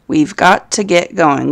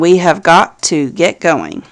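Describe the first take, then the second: First: We have is contracted to one syllable. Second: We have is said as two full words. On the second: "this comes from we have"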